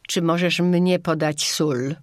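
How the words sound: The pronoun is stressed.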